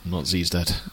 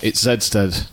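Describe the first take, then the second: First: The letter is pronounced as zee. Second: The letter is pronounced as zed. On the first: The speaker calls it wrong. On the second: The speaker calls it right.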